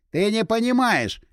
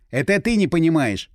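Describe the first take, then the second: First: High, drawn-out «не понимаешь»; heated protest. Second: Angry retort with stress on «ты»; flaring up angrily. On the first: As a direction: protest insistently, pitched high and slow on «понимаешь». Heated quarrel, insisting he understands better. (взвинченно, высоко и протяжно: «не понимаешь») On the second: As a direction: throw it back, hitting «ты». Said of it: "взбеленился я". (вспылив, с нажимом на «ты») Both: A narrator's reading.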